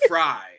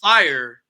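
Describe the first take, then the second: First: The name is said with one syllable, like 'fry'. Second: The name is said with two syllables, like 'fire'. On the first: The speaker calls it right. "but fry" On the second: The speaker calls it wrong. "Not not not fire"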